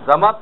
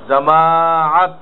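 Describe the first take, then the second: First: The word is clipped with a short middle vowel. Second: The word has a long, drawn-out middle vowel. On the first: The speaker calls it wrong. "জামাত তো কোনো শব্দ নেই" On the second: The speaker calls it right. "জামাআত আইন আছে এখানে"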